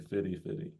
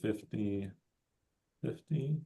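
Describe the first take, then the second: First: Both words are said with a casual, altered pronunciation. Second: Both words are said with full standard pronunciation. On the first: "we sometimes change the pronunciation. We say fitty fitty" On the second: "you can say fifty fifty"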